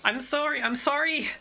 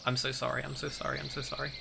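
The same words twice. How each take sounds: First: Contained shout, pitched way up. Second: Hushed, much softer repeated apology; muttering under her breath. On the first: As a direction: call it out in a high, panicked voice after a gasp. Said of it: "she just shouts out". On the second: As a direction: mutter it to yourself, barely meant to be overheard. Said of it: "muttering under her breath". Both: Acted.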